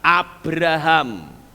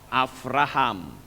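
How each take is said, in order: First: The middle consonant is a b sound. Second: The middle consonant is a v sound.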